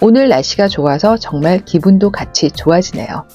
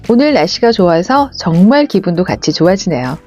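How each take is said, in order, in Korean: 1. 감정 없이 밋밋하게 들려요. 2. 미소 짓는 것처럼 행복하게 들려요. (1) "밋밋하게 들리시죠?" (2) "행복한 미소를 짓는 느낌으로 해보겠습니다"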